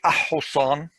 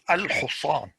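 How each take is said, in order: First: The l is left out before the h. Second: The l is clearly pronounced before the h. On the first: The speaker calls it wrong. "You don't say a-husan, is wrong" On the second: The speaker calls it right. "you pronounce"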